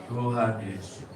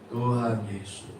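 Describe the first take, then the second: The two takes are said the same way.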